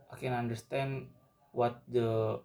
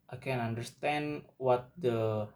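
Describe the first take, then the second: No difference in how they are said.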